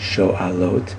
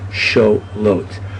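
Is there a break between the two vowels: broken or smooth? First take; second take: broken; smooth. First: There is a break before the 'a' sound. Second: The vowels run together with no break. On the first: The speaker calls it right. "the guttural letter loves the ah sound" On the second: The speaker calls it wrong. "We would have lost, per se, the guttural letter"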